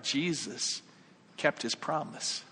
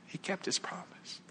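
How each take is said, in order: First: Slow, softer, voiced; measured, quiet conviction; solemn assurance. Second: Near-whisper, very soft; hushed reverence. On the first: Preacher assures about Jesus at judgment, solemn. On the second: Preacher repeats Jesus kept his word, hushed. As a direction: let it fall to an awed whisper. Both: Real, not acted.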